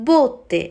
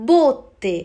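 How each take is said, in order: Both takes have the same delivery.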